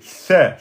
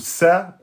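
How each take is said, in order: First: The consonant sounds like th, tongue out. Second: The consonant sounds like a plain s. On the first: The speaker calls it right. "Il faut sortir un peu la langue, d'accord, et ensuite vous soufflez" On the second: The speaker calls it wrong. "Si vous la sortez pas, vous allez sortir la lettre sa ou sa, ça c'est faux"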